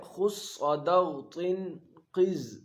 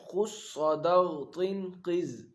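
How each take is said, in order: First: Each syllable spelled out slowly; teacher drilling the group word; slow letter groups. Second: Very slow, each syllable drawn out; teacher repeating خص صدغ طن قز syllable by syllable; slow recitation. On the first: Teacher to pupils, reciting the group slowly. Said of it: "ان کا مجموعہ آتا ہے". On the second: Teacher repeating for pupils, very slow recitation. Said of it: "کیا ہے؟". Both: Shown as a demonstration.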